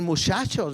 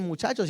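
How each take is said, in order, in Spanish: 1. Se dice con pronunciación de Chihuahua. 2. Se dice con pronunciación estándar. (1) "dicen muchachos, ¿verdad? Algo parecido, pronuncian de esa manera" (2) "no dicen muchachos"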